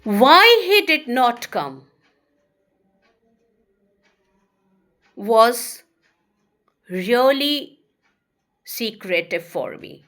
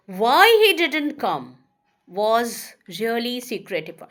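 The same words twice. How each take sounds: First: Slow and louder, long pauses between words; slow spaced teacher dictation. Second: Said in the usual way. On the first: Shown as a demonstration. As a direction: dictate it piece by piece. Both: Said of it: "give you another examples".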